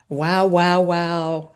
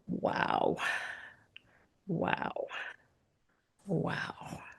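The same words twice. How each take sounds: First: It sounds excited and amazed. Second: It sounds quiet, thankful and relieved.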